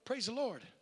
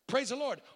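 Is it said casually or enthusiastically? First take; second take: casually; enthusiastically. First: It is said in a casual, offhand way. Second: It is said with real, heartfelt enthusiasm.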